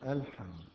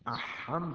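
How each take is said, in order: First: The L sound of the article is clearly pronounced. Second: The L sound of the article is left out. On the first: The speaker calls it right. "الحمد من حرف قمري" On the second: The speaker calls it wrong. "أحمد ما يقال"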